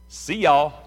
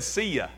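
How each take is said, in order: First: The word ends in a 'yall' sound. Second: The word ends in a short open 'ya' sound. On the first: The speaker calls it right. "the way you pronounce the second part is y'all" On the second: The speaker calls it wrong. "Almost. Brother Charlie said, see ya. That's almost spot on"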